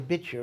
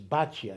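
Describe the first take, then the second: First: The first vowel sounds like 'ee'. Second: The first vowel sounds like 'ah'. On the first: This is the name as the scriptural text gives it. "You'll notice I say Bitya" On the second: This is the common modern form of the name. "Most of us say the name is Batya"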